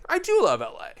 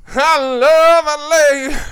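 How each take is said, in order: First: Said in the usual way. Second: Loud, high, drawn-out mock cheer; hammed-up declaration. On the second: Co-host teases about loving L A, hammed-up loud declaration. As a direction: belt it out slowly, playing to the room.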